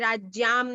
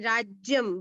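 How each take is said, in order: First: The second vowel is a long aa. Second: The second vowel is a short a. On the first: The speaker calls it wrong. "राज्याम नहीं" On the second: The speaker calls it right.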